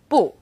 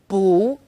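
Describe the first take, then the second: First: Bu is said with the fourth tone. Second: Bu is said with the second tone. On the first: "bu is fourth tone" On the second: "it becomes second tone"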